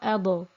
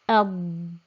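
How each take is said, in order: First: The final consonant bounces with a vibrating echo. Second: The final consonant stops cleanly without any echo. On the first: The speaker calls it wrong. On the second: The speaker calls it right.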